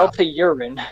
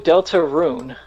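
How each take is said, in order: First: The name ends with the word 'urine'. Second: The name ends with the sound 'rune'. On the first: The speaker calls it wrong. "It sounded like you said Delta Urine" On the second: The speaker calls it right. "No, Deltarune"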